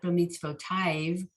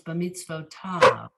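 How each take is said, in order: First: The ending is pronounced 'taiv' with the yud sounded. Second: The ending is pronounced 'tav' with a silent yud. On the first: The speaker calls it wrong. "It's not b'mitzvotav" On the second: The speaker calls it right. "the yud is silent"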